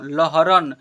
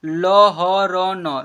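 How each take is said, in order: First: Said in the usual way. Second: "लहरन" loud and slow as ल, ह, र, न; letter by letter. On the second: Shown as a demonstration. Teacher sounding out "लहरन" for learners, letter by letter. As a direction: stretch "लहरन" into four long syllables. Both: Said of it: "क्या लिखा हुआ है?".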